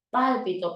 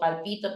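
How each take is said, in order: First: The stress is on the first syllable. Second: The stress is on the second syllable.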